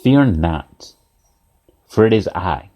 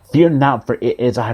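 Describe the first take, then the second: First: Low, slow, spaced-out reassurance; measured calling out. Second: Calling out. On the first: Jesus calls out to frightened disciples, measured low call. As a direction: call it low and deliberate, pausing midway. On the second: Jesus's words repeated to the congregation, firm unbroken call. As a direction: run together, starting firm, then easing. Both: Acted. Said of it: "Jesus calls out to them".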